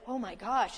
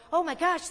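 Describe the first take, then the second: First: Said in the usual way. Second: High alarmed gasp of a line; mock panic. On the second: Preacher mimics a panicking believer in the storm, high and alarmed. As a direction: blurt it like the hull just cracked. Panicky self-talk on the ship.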